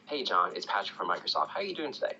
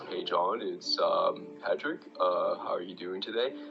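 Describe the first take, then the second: First: It is said calmly at a moderate pace. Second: It is said very slowly with hesitations.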